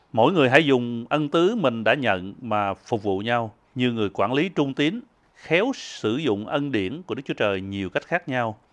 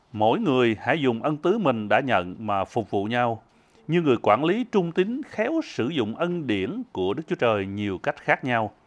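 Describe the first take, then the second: No difference in how they are said.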